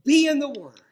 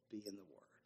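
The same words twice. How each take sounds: First: Loud, higher preaching cry; exhorting shout. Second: Much softer, lower urging; quiet plea. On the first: Preacher exhorting his congregation to read scripture. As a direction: call it out like a command. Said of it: "I exhort you". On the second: Preacher softly pleading with his congregation. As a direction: say it close and gently. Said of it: "You must". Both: Acted.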